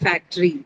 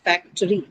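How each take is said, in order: First: The middle vowel is dropped, giving two syllables. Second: The middle vowel is kept, giving three syllables. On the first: The speaker calls it wrong. "some of the people would want to omit, particularly in the Indian context, because the articulation sounds like factory" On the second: The speaker calls it right. "But it should be factory. Factory. Three syllable word"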